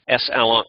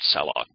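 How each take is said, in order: First: It begins with the letter S, then alloc. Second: It begins with one blended syllable, sal. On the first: It is short for slurm allocate. "best to think of it as slurm alloc" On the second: Some other people say it this way. "some people pronounce that salloc"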